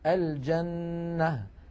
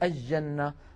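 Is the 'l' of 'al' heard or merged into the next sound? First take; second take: heard; merged. First: The l is clearly heard before the j. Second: The l merges into a doubled j sound. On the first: The speaker calls it right. "لكن الفصحى أن نقول" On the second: The speaker calls it wrong. "فكثيرا ما نسمع بعض الناس يقولون الجنة"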